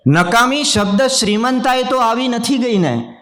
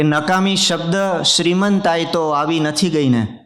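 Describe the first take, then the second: First: Much higher, declaimed repeat of the verse; ringing mushaira repeat; poetry recitation. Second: Said in the usual way. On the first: Acted. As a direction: lift the line high for the audience. Repeats the couplet line for effect.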